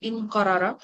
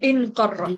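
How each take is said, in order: First: A vowel separates the two r sounds. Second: The two r sounds merge into a double r. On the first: The speaker calls it wrong. "অবশ্যই এটা পাশাপাশি এভাবে থাকবে না" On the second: The speaker calls it right. "তার মানে এটা হয়ে যাবে ইন কররা"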